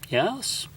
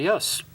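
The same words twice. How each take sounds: First: The yes sounds hesitant and doubtful. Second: The yes sounds casual and unbothered. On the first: There may not really be a headache. "I'm not even sure he has a headache" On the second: The headache is not very bad. "Yeah, it's not very bad"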